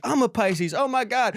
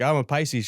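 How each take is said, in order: First: High, gushing imitation of delight; mock excited. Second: Said in the usual way. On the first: Woman finding out they share a sign, mock thrilled. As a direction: squeal it a little, imitating an astrology fan.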